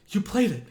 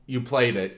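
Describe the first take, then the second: First: It is said excitedly, with lots of energy and inflection. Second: It is said flatly, with no change in the voice. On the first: The speaker calls it right. "if you were really excited for your friend" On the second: The speaker calls it wrong. "in the exact same way every single time"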